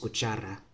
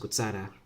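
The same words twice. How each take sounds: First: The ch is pronounced the Spanish way. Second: The ch is pronounced the Cebuano way. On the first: "In Spanish, it's cuchara" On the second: "in Cebuano, it's cuchara. So listen to the ch"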